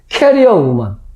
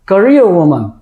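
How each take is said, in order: First: The first syllable has a full, clear vowel. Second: The first syllable is weak, stress falls later. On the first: The speaker calls it wrong. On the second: The speaker calls it right.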